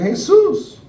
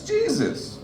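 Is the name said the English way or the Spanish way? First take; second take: Spanish; English. First: It starts with an H sound, Spanish style. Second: It starts with a J sound, English style. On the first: It refers to an ordinary local man. "smells like weed, has a six pack of Modelo" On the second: It refers to the holy figure. "If he died on the cross, literally all robes and holy"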